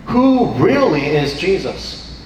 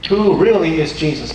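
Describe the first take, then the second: First: Slow, with "Who" leaned on hard; "Who" weighted, slow and deliberate; stress on WHO. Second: "really" punched, the rest falling; "really" carries the weight, short and firm; stress on REALLY. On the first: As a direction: hit the word "Who" and let the rest fall. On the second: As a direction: lean on "really". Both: Shown as a demonstration. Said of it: "why do I stress who really is Jesus".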